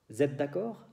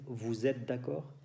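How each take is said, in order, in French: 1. Le pronom est abrégé et lié à 'êtes'. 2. Le pronom est prononcé en entier avant 'êtes'. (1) "Aquí elision con liaison también" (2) "En lugar de decir"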